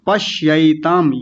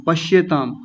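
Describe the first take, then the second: First: पश्यैताम slow, with an open ऐ; the right way, पश्यैताम; correct pronunciation. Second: पश्येताम with plain ए, the common mistake; wrong pronunciation. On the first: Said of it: "पश्येताम नहीं". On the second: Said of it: "गलत उच्चारण करते हैं". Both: Shown as a demonstration.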